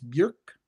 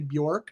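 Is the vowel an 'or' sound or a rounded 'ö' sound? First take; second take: ö sound; or sound. First: The vowel is a rounded 'ö' sound. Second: The vowel sounds like 'or' in pork. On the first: The speaker calls it right. "That's how you pronounce that O with the umlau on the top" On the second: The speaker calls it wrong. "Americans who love to say [name], rhyming with pork"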